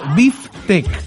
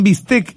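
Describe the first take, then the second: First: The middle consonant sounds like an f. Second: The middle consonant sounds like an s. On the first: The speaker calls it right. "uno debiera pronunciar como biftec" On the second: The speaker calls it wrong. "uno dice, hoy me voy a comer un bistec, y no es así"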